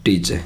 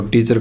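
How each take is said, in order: First: टीचर as "tee-che", lower and without R; corrected silent R. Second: टीचर with a final R; usual form, R sounded. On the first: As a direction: end टीचर on "che", dropping the R. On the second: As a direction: say टीचर as "tee-char". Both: Shown as a demonstration. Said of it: "टीचर का क्या आ जाएगा".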